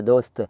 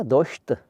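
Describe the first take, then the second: First: दोस्त said with a clean s, not sh; correct s sound. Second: दोस्त said as doshta with a sh sound; wrong pronunciation with sh. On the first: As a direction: model the correct दोस्त with a crisp s. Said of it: "यहाँ सा बोलना है". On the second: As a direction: mispronounce दोस्त with sh in place of s. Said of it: "यहाँ सा बोलना है, शाह नहीं बोलना है". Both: Shown as a demonstration.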